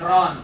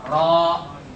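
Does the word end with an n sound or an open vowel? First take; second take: n sound; open vowel. First: The word ends with an n sound. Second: The word ends on a bare vowel. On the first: The speaker calls it wrong. "jangan ron" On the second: The speaker calls it right. "ketika berhenti ro"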